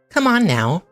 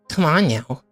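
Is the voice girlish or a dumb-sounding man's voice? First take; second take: girlish; dumb man's. First: It is said in a girlish voice. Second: It is said in a dumb man's voice.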